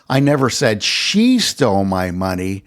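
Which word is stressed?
she. The word "she" is stressed. Someone else might have taken it. "I never said that she stole my money, though someone else might have"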